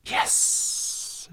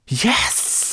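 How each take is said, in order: First: Whispered serpent hiss. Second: High, loud, forceful serpent hiss; hissed cry. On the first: The serpent studies the scale, whispered hiss. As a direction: stretch the S into a long hiss. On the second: The serpent recognizes the scale, fierce hissed cry. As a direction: burst out with a long sharp S. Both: A narrator's reading. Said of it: "she hissed".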